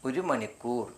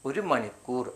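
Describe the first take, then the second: The two takes are said the same way.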